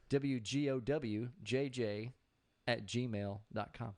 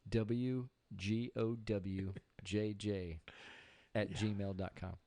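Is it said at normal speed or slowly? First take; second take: normal speed; slowly. First: It is said at normal speed. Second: It is said slowly.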